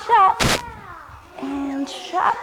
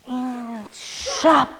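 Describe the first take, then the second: First: Higher, louder burst on chop. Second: Said in the usual way. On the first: Shown as a demonstration. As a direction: shout the chop like swinging an axe. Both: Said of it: "and you take a big breath".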